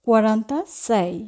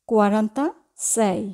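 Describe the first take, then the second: No difference in how they are said.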